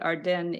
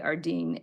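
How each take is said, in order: First: The name is said the Quebec way. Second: The name is said the usual way. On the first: This is how people in that province say it. "I think they pronounce it Ardennes in uh, Quebec" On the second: This is how people in other places say it. "maybe Ardene elsewhere"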